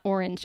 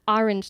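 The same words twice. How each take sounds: First: It is said with a Californian accent. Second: It is said with a New Jersey accent. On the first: "I grew up in California" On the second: "my mom's from New Jersey"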